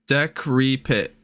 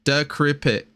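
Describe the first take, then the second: First: "Decrepit" slowly as deck-REE-pit; slow, deliberate "Decrepit"; careful sounding out. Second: "Decrepit" as duh-KRIP-it, settled; "Decrepit" pronounced with a short I; sounding out. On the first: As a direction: stretch out each syllable of "Decrepit". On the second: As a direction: say "Decrepit" with a hard C, falling. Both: Real, not acted. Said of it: "D E C R E P I T".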